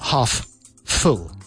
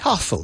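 First: The two F sounds are said separately. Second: The two F sounds are joined into one. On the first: The speaker calls it wrong. "not half full" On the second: The speaker calls it right. "You'd say half full"

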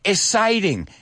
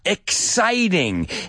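First: The x is said without a k sound. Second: The x is said with a clear k sound. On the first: The speaker calls it wrong. "oigo mucha gente decir" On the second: The speaker calls it right. "Dame una K"

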